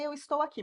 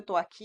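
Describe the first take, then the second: First: The verb is said in full, with two syllables. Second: The verb is shortened to one syllable. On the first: This is the correct, formal way to say it. "o correto é eu estou aqui" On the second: This is how people actually speak every day. "você vai ouvir sua mãe falando eu tô"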